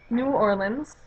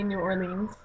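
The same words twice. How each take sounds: First: "Orleans" squeezed short, ending in lins; "New Orleans" with a short unstressed last vowel; usual "New Orleans". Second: "Orleans" ending in a long leens; "New Orleans" with a long ee at the end; alternative "New Orleans". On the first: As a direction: say "Orleans" as OR-linz. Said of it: "sometimes I say New Orleans". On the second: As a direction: say "Orleans" as or-LEENZ. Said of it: "although sometimes I say New Orleans". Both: Shown as a demonstration.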